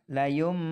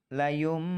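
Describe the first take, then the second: No difference in how they are said.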